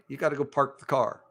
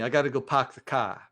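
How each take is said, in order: First: It has a Minnesota accent with the R pronounced. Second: It has a Boston accent with the R dropped.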